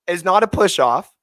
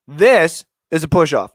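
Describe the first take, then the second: First: "is not a push off" said evenly, no extra weight; plain denial. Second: "This" punched and slowed, falling hard; stress on this. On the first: Showing the replay to listeners, saying it plainly. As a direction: state it level, then set up the contrast. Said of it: "this to here". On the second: Pointing out the real push off to listeners, hitting "This". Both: Shown as a demonstration.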